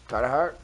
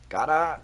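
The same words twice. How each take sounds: First: Said in the usual way. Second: Bad Philly accent, dropped Rs. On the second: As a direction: attempt a hammed-up Philadelphia accent. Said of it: "As they say in Philly".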